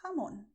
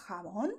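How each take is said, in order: First: "jamón" with a light h for j; soft j. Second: "jamón" with a long scraped throat j; strong j. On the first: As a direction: breathe the first sound of "jamón" softly. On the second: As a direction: rasp the first sound of "jamón". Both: Shown as a demonstration. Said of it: "whatever you like best".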